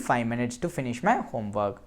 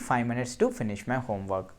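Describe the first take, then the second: Both takes have the same delivery.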